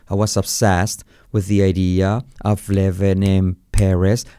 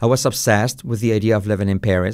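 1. La frase se dice despacio. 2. La frase se dice a un ritmo normal.

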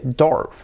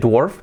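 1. La vocal es igual a la vocal de sword. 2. La vocal es diferente a la vocal de sword. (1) "se dice dwarf. Así. / Es el mismo sonido vocal" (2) "no se dice dwarf"

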